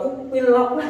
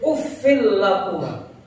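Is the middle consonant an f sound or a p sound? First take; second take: p sound; f sound. First: The middle consonant is a closed p sound. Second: The middle consonant is a breathy f sound. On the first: The speaker calls it wrong. "bukan upil lakuma" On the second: The speaker calls it right. "Jadi uffil lakuma"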